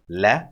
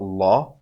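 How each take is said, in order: First: The L sound is soft and light. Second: The L sound is heavy and dark. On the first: The speaker calls it right. "See the light lam?" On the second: The speaker calls it wrong. "It's not la"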